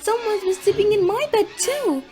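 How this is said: It is said in a medium-sized voice.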